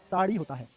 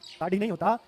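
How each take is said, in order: First: साड़ी with unaspirated flapped "ri"; correct pronunciation. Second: साढ़ी with aspirated "rhi"; wrong pronunciation. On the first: Teacher gives students the right word, correctly pronounced. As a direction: keep breath out of साड़ी. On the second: Teacher rejects the wrong word, mispronounced. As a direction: add breath to the end of साढ़ी. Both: Shown as a demonstration.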